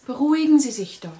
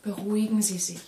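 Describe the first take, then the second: First: Louder plea. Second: Said in the usual way. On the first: Acted.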